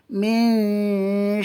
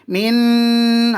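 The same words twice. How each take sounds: First: The n is hidden with a nasal hum. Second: The n is pronounced clearly and fully. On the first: The speaker calls it right. "kena sembunyi sikit" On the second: The speaker calls it wrong. "Tak boleh min, ah no"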